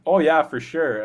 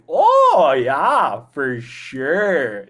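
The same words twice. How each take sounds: First: It is said at a normal quick pace. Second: It is drawn out slowly, words chewed.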